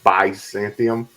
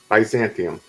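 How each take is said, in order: First: The first syllable is said strongly and heavily. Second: The first syllable is said lightly and smoothly.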